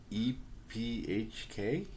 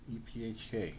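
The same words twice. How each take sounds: First: "E P H K?" spelled out slowly, letter by letter, rising like a question; unsure spelling. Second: "E P H K." spelled out once more at normal pace, settled and falling; plain. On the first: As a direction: read "E P H K?" letter by letter, slow and unsure. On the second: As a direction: say "E P H K." letter by letter, flat and final. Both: Real, not acted. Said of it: "I don't even know how to pronounce that".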